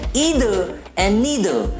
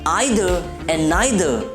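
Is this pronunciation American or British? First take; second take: American; British. First: It is said with an American pronunciation. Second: It is said with a British pronunciation. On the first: "in American" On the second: "in British English"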